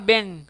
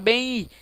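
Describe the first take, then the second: First: The word ends with a closed m sound. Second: The word ends with a nasal i glide. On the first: The speaker calls it wrong. "Você não fala bem" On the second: The speaker calls it right. "você fala bem I"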